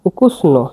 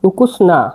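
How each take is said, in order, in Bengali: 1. শব্দটি 'o' স্বরধ্বনি দিয়ে শেষ হয়। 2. শব্দটি 'a' স্বরধ্বনি দিয়ে শেষ হয়। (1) "নো বলতে পারেন" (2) "উচ্চারণটা না বললেই বেটার হয়।"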